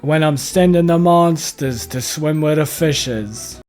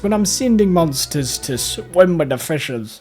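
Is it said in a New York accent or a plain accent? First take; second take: New York; plain. First: It is said in a New York accent. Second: It is said in a plain accent.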